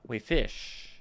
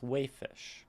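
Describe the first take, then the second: First: The stress is on the second syllable. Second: The stress is on the first syllable. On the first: The speaker calls it wrong. "We wouldn't say uh, wayfish" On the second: The speaker calls it right. "Waif is the main word"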